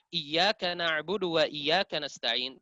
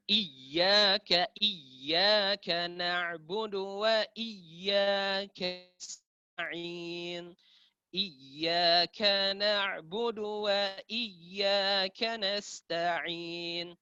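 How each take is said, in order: First: "iyyaka" with single light y, as "iyaka"; without tasydid. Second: "Iyyaka" with long, doubled y; very slow melodic chant dwelling on yy of "iyyaka"; tasydid added. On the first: Teacher shows a missing doubling, no tasydid. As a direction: recite "iyyaka" plainly, never doubling the y. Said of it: "tanpa tasydid". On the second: Teacher shows the correct reading, tasydid added. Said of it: "kapan kita tambahkan tasydid, maka itu ya benar". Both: Shown as a demonstration.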